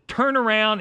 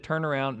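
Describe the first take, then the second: First: High, loud urgent order; urgent command. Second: Said in the usual way. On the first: Retold or imitated. Telling the driver to turn back, high urgent command. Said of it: "I said". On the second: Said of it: "about the time I said".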